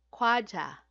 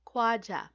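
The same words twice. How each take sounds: The two takes are said the same way.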